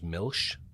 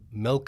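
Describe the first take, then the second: First: The word ends with an SH sound. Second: The word ends with a hard K sound. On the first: The speaker calls it wrong. "for me was milsh when I was growing up" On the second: The speaker calls it right. "the K is a hard K"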